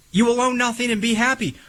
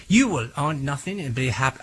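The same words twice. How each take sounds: First: High, fast sneering imitation of the Klaus Schwab quote; mock Klaus Schwab quote, no German accent; mock villain quote. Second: Put-on a flat, half-hearted stab at a German accent; a German accent that falls flat; failed German accent. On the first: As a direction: ham up the villain's line with a sneer. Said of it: "as Klaus Schwab would say". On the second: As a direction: try a German accent and barely manage it. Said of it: "I can't do a German accent".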